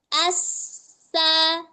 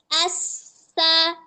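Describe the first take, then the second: No difference in how they are said.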